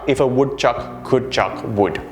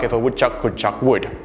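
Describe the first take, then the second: First: It is said slowly. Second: It is said quickly. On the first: "It's easy when you say it slow" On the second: "Let's try it fast"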